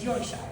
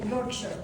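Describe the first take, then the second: First: It is said with an English accent. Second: It is said with an American accent. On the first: The speaker calls it right. "but it's Yorkshire" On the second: The speaker calls it wrong. "to me I would just say Yorkshire"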